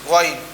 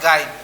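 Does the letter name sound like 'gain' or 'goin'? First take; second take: goin; gain. First: It sounds like 'goin', with a rounded vowel. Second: It sounds like 'gain', with an 'ay' vowel. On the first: The speaker calls it right. "this one is goin" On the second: The speaker calls it wrong. "not gain"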